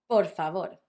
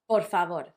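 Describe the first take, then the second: The two takes are said the same way.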